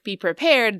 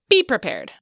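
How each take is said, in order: First: The stress falls on the last syllable. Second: The stress falls on the first syllable. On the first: The speaker calls it right. "instead of pronouncing it like be prepared" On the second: The speaker calls it wrong. "they'd say be prepared"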